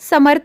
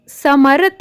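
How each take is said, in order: First: The r is said quickly and weakly. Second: The r is said fully with a vowel. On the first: "जल्दी जल्दी बोलना है" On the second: "अगर यह र आधा नहीं पूरा होता"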